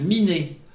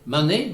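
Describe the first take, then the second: First: The first vowel is i, not é. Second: The first vowel is a, not é. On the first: This is the form used in central Brittany. "dans le centre-Bretagne, Miné" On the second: This is the form used in the Vannes area. "Vante, Mané"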